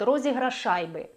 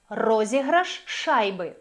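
First: The two sh sounds merge into one. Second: A tiny break separates the two sh sounds. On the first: The speaker calls it wrong. "Якщо ви не будете зберігати цей люфт між словами, буде якесь таке поєднання" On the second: The speaker calls it right. "Люфт"

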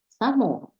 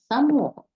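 No difference in how they are said.

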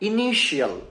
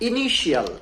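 First: The ending is said as 'shee-al'. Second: The same.

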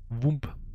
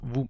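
First: The word ends with an audible b or p sound. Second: The word ends on the m sound. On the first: The speaker calls it wrong. "dieses B hinten zu auszusprechen ist falsch" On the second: The speaker calls it right. "es heißt nur Wum"

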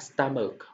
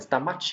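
First: The word ends with a 'k' sound. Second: The word ends with a 'ch' sound. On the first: The speaker calls it right. "âm c là âm cuối, ch đọc ra là âm c" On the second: The speaker calls it wrong. "chúng ta không đọc là stomach như nhiều bạn đọc nhé"

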